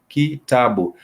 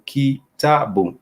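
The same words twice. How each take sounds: First: Said in the usual way. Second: Kitabu slowly, ki-ta-bu syllable by syllable; teacher modelling kitabu slowly; slow Swahili demo. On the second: Shown as a demonstration. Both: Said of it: "is translated into".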